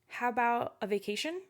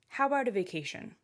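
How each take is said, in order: First: The voice rises at the end. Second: The voice falls at the end. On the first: The speaker sounds unsure of the request. "you might end up saying" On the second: The speaker sounds confident in the request.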